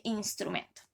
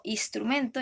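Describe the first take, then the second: First: Said in the usual way. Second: "instrumento" said as "istrumento", no n before the s; dropped n. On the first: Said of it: "en vez de". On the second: Shown as a demonstration. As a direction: swallow the n in "instrumento".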